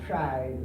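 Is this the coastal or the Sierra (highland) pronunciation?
Sierra. It is said with the highland Sierra 'tr' sound. "in the Sierra, they say try, like, you know, it's, uh, T R, it's a different sound"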